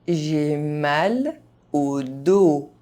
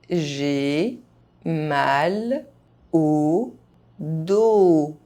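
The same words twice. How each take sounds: First: The phrase is spoken at normal speed. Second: The phrase is spoken very slowly. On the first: This is the pace learners should use. "at a normal pace" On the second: Each syllable can be heard clearly. "very slowly"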